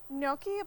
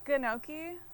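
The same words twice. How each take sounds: First: The starting G is silent, blended into an ny sound. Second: The starting G is pronounced as a hard G sound.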